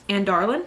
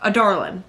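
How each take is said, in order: First: An n sound comes before the d. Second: No n sound comes before the d. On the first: The speaker calls it wrong. "I don't know where the N was coming from" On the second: The speaker calls it right. "There we go"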